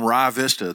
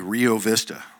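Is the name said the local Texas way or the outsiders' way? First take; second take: local Texas; outsiders'. First: It is said the local Texas way. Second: It is said the way outsiders say it.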